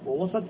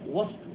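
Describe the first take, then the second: First: The s sound is followed by a short a. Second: The s sound has no vowel after it. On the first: It is a noun meaning a middle part. "وإذا فتحت السين لم يكن ظرفا" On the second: It works as an adverb of place. "يكون ظرفا إذا سكنت السين"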